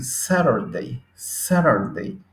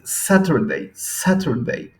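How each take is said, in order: First: American Saturday with the t flapped to r, saɾaɾdei, slow; American accent. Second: British Saturday with a crisp t, sateɾdei, slow and higher; British clear t in Saturday; British accent. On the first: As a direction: acento americano, Saturday con r suave. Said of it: "para los americanos ... suena con R". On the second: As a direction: acento británico, Saturday con t clara. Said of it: "el inglés británico ... va a decir". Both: Shown as a demonstration.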